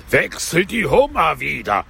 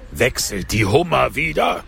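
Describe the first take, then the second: First: Raised, wailing Gryphon cry; howling Gryphon. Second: Half-hearted attempt at a howl; howling Gryphon. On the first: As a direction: howl it higher, swooping. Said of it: "heulte der Greif mit erhobener". (heulend mit erhobener Stimme) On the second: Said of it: "heulte der Greif mit erhobener Stimme". (leicht heulende Greifenstimme) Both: A narrator's reading.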